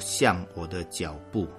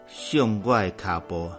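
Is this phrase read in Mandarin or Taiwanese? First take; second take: Mandarin; Taiwanese. First: The phrase is read with Mandarin pronunciation. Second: The phrase is read with Taiwanese pronunciation.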